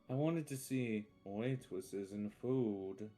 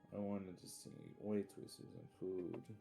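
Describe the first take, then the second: First: It is said loudly. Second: It is said fairly quietly.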